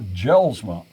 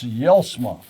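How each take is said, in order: First: The name begins with a J sound. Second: The name begins with a Y sound. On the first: The speaker calls it wrong. "It's not Jelsma" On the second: The speaker calls it right. "the J is pronounced like a Y"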